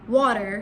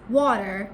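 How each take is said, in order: First: The r sound is clearly pronounced. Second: The same.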